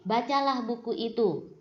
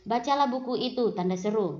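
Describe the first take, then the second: First: Said in the usual way. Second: "Bacalah buku itu" followed by the words "tanda seru" spoken aloud; wrong way, reading the mark aloud. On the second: Shown as a demonstration. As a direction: read the command, then wrongly say "tanda seru" as if it were part of the sentence. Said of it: "Nah, tidak seperti itu ya".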